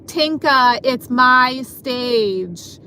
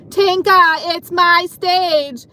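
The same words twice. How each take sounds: First: Imitating a coworker's rude, drawn-out demand; mock rude and slow on the last words; kinda rude. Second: Imitating a rude coworker, loud and high; mock yell, high-pitched drawn-out demand; raised voice. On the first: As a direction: mimic her rudely staking a claim, stretching the words. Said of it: "starts to say kinda rudely". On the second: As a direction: holler it like her, dragging out the last words. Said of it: "started to raise her voice".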